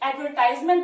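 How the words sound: The word is said in an American accent. "American accent में इसको एडवर्टाइजमेंट बोलते हैं"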